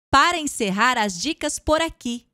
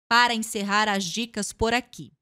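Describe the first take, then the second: First: Said smiling, with higher pitch and more energy. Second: Said with a closed, unsmiling face. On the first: "Agora eu vou ler a mesma frase sorrindo" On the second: "sem sorrir, tá? Com a expressão facial fechada"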